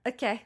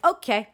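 First: Softer, higher okay; acted soft okay. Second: Higher, louder okay; acted reaction okay. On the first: Telling friends how she went along with it, small soft okay. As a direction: take it in with a small, quiet okay. Same reaction, repeated softly. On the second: Telling friends how she reacted to a switch, perked-up okay.

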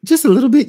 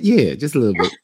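First: High and a bit louder; ironic high understatement. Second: Said in the usual way. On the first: Real, not acted. Joking about his misogynist character, high ironic understatement. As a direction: toss it off in mock innocence.

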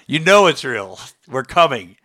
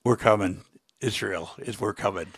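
First: "You know it's real" pressed firmly, louder; emphatic warning. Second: Low, soft and grave; quiet warning. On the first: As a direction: drive home "We're coming" with firm, falling stress. Same message repeated with force. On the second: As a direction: deliver a hushed, understated warning. Grave message to the president, first take. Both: Real, not acted.

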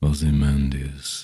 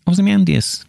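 First: Ozymandias said slow and lower, drawn out; deep slow narrator Ozymandias; dropped and slow. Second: Ozymandias said high and louder, falling at the end; bright high Ozymandias with a drop; a raised Ozymandias, pitched up and falling; normal take. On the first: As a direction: drop the voice for a ponderous Ozymandias. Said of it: "I drop it to ... and do it slow". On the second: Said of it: "that'd be normal". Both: Shown as a demonstration.

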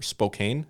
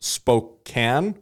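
First: Spokane with a long a, rhyming with cane; Spokane said spo-CANE. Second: Spokane with a short a, rhyming with can; Spokane said spo-CAN. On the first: Host offering the other option, Spokane as spo-CANE. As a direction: say Spokane slowly, ending like "cane". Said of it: "It's spelt Spokane". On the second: Host unsure of the city's name, Spokane as spo-CAN. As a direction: say Spokane slowly, ending like "can". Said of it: "How do you say it?". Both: Shown as a demonstration.

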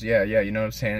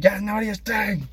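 First: Said in the usual way. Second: High-pitched strained mock yell; fast, exasperated outburst, voice way up; annoyed. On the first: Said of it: "And he goes". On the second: Larry finally losing it at J B, annoyed mock yell. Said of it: "He was just, like, annoyed".

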